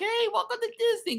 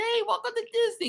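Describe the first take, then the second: First: It sounds overly cheerful and smiley. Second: It sounds overly cheerful and smiley.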